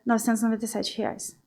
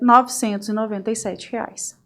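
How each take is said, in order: First: The voice drops and sounds hesitant and unsure. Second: The voice stays steady and sounds plain and confident. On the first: The seller does not trust the value offered. The speaker calls it wrong. "Você baixou o tom de voz na hora de falar o preço" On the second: The seller simply states the price without reacting. The speaker calls it right. "A gente simplesmente coloca para o cliente"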